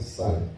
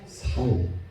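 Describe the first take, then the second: First: The word begins with a tense s. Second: The word begins with a plain s. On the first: "호남 쪽에 있는 사람들은 쌀 그러죠" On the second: "경상도 쪽에 계시는 분들은 살 이러잖아요"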